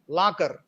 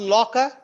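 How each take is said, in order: First: The first vowel is unrounded and strong. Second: The first vowel is rounded; final r weak. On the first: The speaker calls it wrong. "in the Telugu way of speaking or pronouncing this word is lakar, la. We make it strong" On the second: The speaker calls it right. "law, or rounded, and the final R is weak"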